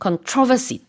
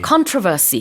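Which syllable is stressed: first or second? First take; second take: second; first. First: The stress is on the second syllable. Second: The stress is on the first syllable. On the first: This is how it is said in Britain. "영국에서는 controversy 두 번째 음절에 강세가 있어요" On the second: This is how it is said in North America. "앞에 강세가 있고"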